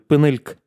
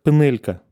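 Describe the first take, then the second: First: The first vowel is reduced, and the final vowel is dropped. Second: The first vowel is reduced, and the final vowel is kept. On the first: "последний гласный иногда он будет отсутствовать" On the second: "а как «пенелька»"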